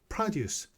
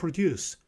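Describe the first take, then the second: First: The stress is on the first syllable. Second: The stress is on the second syllable. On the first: It is the noun meaning farm goods. "앞에 강세가 있을 때는 명사로 쓰여요" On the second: It is the verb meaning to make. "동사로 쓸 때는 강세가 뒤에 있어요"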